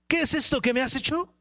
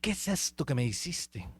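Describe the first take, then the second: First: It is said in an angry, confronting tone. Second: It is said in a soft, mild tone.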